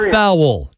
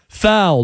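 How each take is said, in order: First: The word is stretched into two syllables. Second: The word is said as one syllable. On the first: The speaker calls it wrong. "The word foul pronounced with two syllables" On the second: The speaker calls it right. "It's one syllable"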